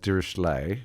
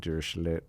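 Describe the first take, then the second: First: The name is pronounced with French-style sounds. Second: The name is pronounced with German-style sounds. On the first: This is the common pronunciation. "the common way is Dirichlet, which is the French way" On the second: This matches the origin of the person it is named after. "the statistician was actually German, so it should be Dirichlet"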